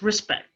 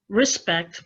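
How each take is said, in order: First: The final t sound is dropped. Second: The final t sound is pronounced.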